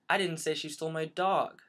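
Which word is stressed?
dog. The stress falls on the word dog.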